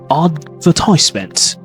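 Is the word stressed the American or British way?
American. The stress falls where American speakers put it. "Examples in American English, uh, you can say advertisement"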